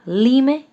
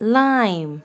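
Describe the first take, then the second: First: Each letter is sounded out separately. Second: It is said as one word with a long vowel. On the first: The speaker calls it wrong. "अगर हम single फोनिक्स के through read out करें तो क्या बनेगा ये? ... This is not a correct pronunciation" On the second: The speaker calls it right. "So what is the correct pronunciation?"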